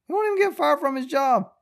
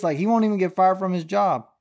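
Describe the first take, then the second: First: Much higher, disbelieving squeal on "won't even"; exasperated falsetto repeat of the line; incredulous high repeat. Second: Said in the usual way. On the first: Real, not acted. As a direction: push it up high in outraged disbelief.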